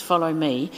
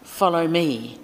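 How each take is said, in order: First: "Follow me" with Follow leaned on; stress on Follow. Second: "Follow me" with the weight on me; stress on me. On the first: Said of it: "he doesn't say". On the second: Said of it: "the stress is on the different word". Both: Shown as a demonstration.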